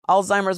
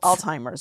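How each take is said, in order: First: A plain Z sound follows the L. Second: A T sound follows the L. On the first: The speaker calls it right. "Alzheimer's with a Z" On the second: The speaker calls it wrong. "for some reason I was putting a T in it"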